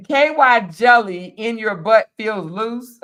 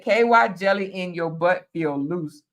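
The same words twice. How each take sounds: First: Slow, louder reading with "feels" stretched out; emphatic re-read. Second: Said in the usual way. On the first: Real, not acted. Host rereading a viewer's comment, slow and emphatic. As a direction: read it back slowly, leaning on each word.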